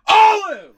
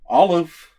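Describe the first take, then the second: First: It is yelled loudly. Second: It is said quietly, without yelling.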